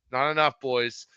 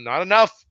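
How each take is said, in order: First: Said in the usual way. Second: Exclamation. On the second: Real, not acted. Lament over Finn Russell's kicks.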